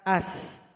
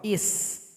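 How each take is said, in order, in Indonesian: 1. Kata ini diawali dengan vokal a. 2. Kata ini diawali dengan vokal i. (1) "hamzah wasal berbaris fathah" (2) "Kadang dibaca kasroh"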